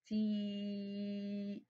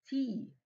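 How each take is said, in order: First: "تي" with a long ee held on one level note; "تي" sustained steadily, teacher showing a long vowel; stretched vowel. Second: Said in the usual way. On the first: Shown as a demonstration. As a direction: softly draw out the ee of "تي". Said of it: "أنتِ قعدتِ تمدي في صوت الحرف".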